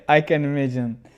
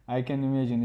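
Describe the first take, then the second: First: Laughing through the words; amused, laughing reply. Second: Said in the usual way. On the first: Real, not acted. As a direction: chuckle it out as you say it. Laughing at viewer's comment.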